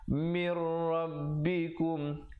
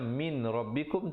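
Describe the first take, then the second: First: The n merges into the r without nasal sound. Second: The n is clearly pronounced before the r. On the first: This is how it must be recited here. "mir di situ idgham bila gunnah" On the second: This is the underlying form before assimilation.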